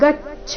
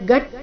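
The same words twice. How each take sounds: First: The 'ch' sound is aspirated. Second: The 'ch' sound is unaspirated. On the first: The speaker calls it right. "ಛ ಇಲ್ಲಿ ಮಹಾಪ್ರಾಣ ರಸ್ವ ಬರಬೇಕು" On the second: The speaker calls it wrong. "ಗಚ್ಚ ಬೇಡ"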